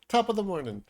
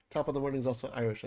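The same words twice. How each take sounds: First: Mock Irish greeting. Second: Said in the usual way.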